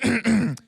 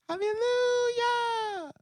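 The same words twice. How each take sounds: First: It is said loudly. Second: It is said quietly.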